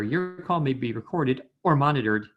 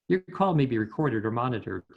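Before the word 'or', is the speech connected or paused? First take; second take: paused; connected. First: There is a break before the word 'or'. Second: The words flow straight into 'or' without breaking. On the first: The speaker calls it wrong. "the voice actor will generally pause there" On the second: The speaker calls it right. "it's really nice if you connect those words"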